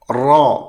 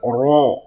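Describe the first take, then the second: First: The vowel is said with the mouth open wide. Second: The vowel is said with rounded, pushed-out lips. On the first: The speaker calls it right. "Mestilah mulut itu dibuka kerana fathah" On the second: The speaker calls it wrong. "Tidak boleh dimuncungkan mulut"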